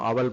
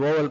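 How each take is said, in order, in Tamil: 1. வார்த்தை 'ah' உயிரெழுத்தில் தொடங்குகிறது. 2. வார்த்தை 'oh' உயிரெழுத்தில் தொடங்குகிறது. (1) "அவல் படிச்சிடாதீங்க" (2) "இது ஓவல் படிக்கணும்"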